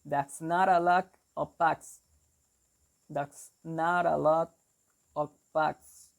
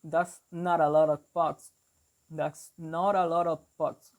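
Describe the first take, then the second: First: New York demo, BUCKS fronted to sound like 'backs'; New York accent. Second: Boston demo, NOT and BUCKS with open 'ah'; Boston accent. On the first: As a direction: show learners the New York vowel, 'bucks' as 'backs'. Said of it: "in New York, they will say something like". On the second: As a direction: show learners the Boston vowel in 'bucks'. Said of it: "in Boston, they will say, like". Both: Shown as a demonstration.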